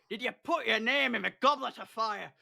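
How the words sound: It is said in an angry, shouting tone.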